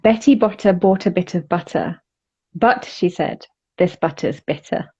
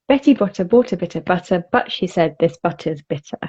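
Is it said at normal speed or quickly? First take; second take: normal; quickly. First: It is said at a normal speed. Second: It is said quickly.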